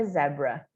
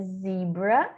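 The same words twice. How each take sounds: First: Zebra said "ZEB-ra"; British zebra. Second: Zebra said "ZEE-bra"; American zebra. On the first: Teacher contrasting zebra for learners, pronounced the British way, "zeb-ra". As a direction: say zebra with a short e, like zed. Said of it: "no inglês britânico é zebra". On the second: Teacher contrasting zebra for learners, pronounced the American way, "zee-bra". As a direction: say zebra with a long ee. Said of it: "em inglês americano é zebra". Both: Shown as a demonstration.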